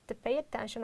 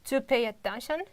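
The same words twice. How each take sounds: First: The unstressed vowels are reduced to schwa. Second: The unstressed vowels are said in full. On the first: The speaker calls it right. "just all about reduction" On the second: The speaker calls it wrong. "it takes more time"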